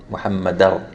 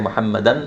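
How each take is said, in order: First: The n merges into a stressed following r. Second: The n sound is clearly pronounced at the end. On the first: The speaker calls it right. "I'm going to be saying Muhammadar" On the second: The speaker calls it wrong. "if I say Muhammadan, then I pronounce the noon"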